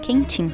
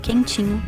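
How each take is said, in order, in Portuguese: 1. A última sílaba cai, terminando em '-im'. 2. A palavra termina com a sílaba '-inho' completa. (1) "passa a ser produzido como quentim" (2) "muitas vezes perdendo a última sílaba"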